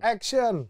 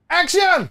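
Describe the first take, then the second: First: It is said weakly and held back. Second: It is said firmly and loudly.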